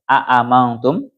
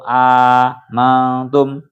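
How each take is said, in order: First: Both glottal stops are pronounced separately at the start. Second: The second glottal stop becomes one long vowel. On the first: "Kalau dibaca tahqiq itu berarti aamantum" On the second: "ganti ing hamzah kang nomor loro alifan"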